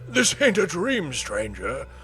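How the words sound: It is said in a put-on character voice.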